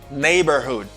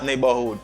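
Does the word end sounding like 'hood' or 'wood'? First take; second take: hood; wood. First: The last part sounds like 'hood', with h. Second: The last part sounds like 'wood', without h. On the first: The speaker calls it right. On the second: The speaker calls it wrong. "It's not wood"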